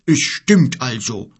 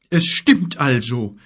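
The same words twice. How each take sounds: First: Slow bear's grumble, louder; growling bear. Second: Slow, shaken giant's voice; shocked giant. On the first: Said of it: "brummte der Bär". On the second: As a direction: let the shock slow him. Gork, shocked. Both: Acted.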